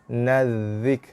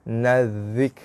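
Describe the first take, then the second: The two takes are said the same way.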